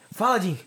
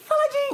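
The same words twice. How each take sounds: First: It is said in a deep male voice. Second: It is said in a put-on female voice.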